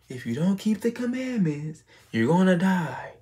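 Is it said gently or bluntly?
gently. It is said in a soft, gentle way.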